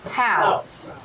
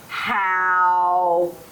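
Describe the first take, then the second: First: The sounds run together as one word. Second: The sounds are said apart with a break. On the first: "Say it fast" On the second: "separating the sounds"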